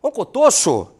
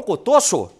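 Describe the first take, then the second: Both takes have the same delivery.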